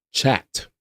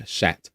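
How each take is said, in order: First: "Chat" with a crisp CH at the start; corrected CH pronunciation. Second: "chat" with a soft SH, like "shat", quieter; slipped SH pronunciation. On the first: Streamer correcting own slip, "Chat" with a clear CH. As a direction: put the T-stop back before SH in "Chat". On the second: Streamer replaying own slip, "chat" said softly as "shat". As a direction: mimic the slip, "chat" starting with SH. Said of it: "Sometimes the accent slips". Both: Shown as a demonstration.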